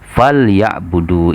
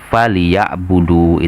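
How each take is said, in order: First: The l is bare, with no vowel after it. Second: The l is followed by a short i vowel. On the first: "itu kan ringan" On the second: "kalau kita kasrohkan ... itu agak berat"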